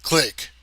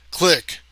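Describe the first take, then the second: First: Said in the usual way. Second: Name forced out much higher and louder; strained cry. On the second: A narrator's reading. Marnigan fights the illusion and cries out to Click. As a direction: cry out while struggling.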